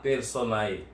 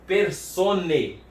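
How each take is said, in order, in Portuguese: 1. A vogal final é pronunciada como 'a-e'. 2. A vogal final é pronunciada como 'e' simples. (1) "Mas não se fala personae" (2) "esse ae tem som de e"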